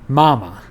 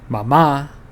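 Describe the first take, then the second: First: The stress is on the first syllable. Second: The stress is on the last syllable. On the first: The speaker calls it wrong. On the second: The speaker calls it right. "Mama has emphasis on the final A"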